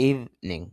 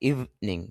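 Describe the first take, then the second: Both takes have the same delivery.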